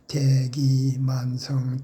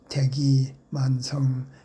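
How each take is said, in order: First: The first and third syllables are long. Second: The first and third syllables are short. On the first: The speaker calls it right. "대하고 만자는 길게" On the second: The speaker calls it wrong. "대하고 만자를 짧게"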